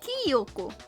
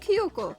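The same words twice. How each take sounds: First: The name copies the dub's mispronunciation. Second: The name has its original Japanese pronunciation. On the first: The speaker calls it wrong. "Not Kyoko" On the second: The speaker calls it right. "It's supposed to be Kyoko"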